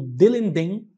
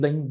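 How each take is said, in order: First: The bell sound is said at a slower pace. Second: The bell sound is said quickly and clipped.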